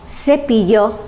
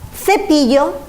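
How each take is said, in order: First: The first consonant sounds like 's'. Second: The first consonant sounds like 'th'. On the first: This is how Latin America says it. "In Latin America, they say" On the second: This is how most of Spain says it. "the rest of Spain, we say C"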